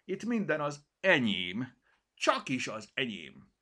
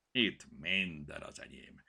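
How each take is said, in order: First: Louder, higher, puffed-up pride; proud claim. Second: Growled. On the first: Cirmi claiming everything to the kitten, proudly. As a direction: stress minden like a boast. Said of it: "húzta ki magát". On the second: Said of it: "morogta a tál felett". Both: Acted.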